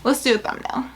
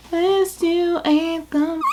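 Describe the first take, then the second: First: Said in the usual way. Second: Slow, higher "thumb-"; playful slow repeat; drawn-out sing-song. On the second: Shown as a demonstration. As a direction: stretch "Let's do a thumb-" out slowly and higher. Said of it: "repeats it drawn out".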